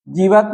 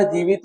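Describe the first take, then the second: First: जीवत said with a short, clipped va and no i; "जीवत", without the i sound; wrong form said. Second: जीवित said with a clear short i after va; "जीवित", with the i sound pronounced; correct form said. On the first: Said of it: "जीवत नहीं होता". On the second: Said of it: "जीवित होता है". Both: Shown as a demonstration.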